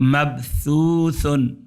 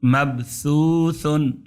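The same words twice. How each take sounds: First: The middle consonant sounds like a soft th. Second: The same.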